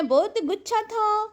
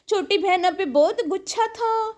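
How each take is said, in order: First: Slow and higher, stretching تھا; slow teasing repeat of گچھا; drawn-out taunt. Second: Said in the usual way. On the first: Real, not acted. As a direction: drag out "بہت گچھا تھا" mockingly.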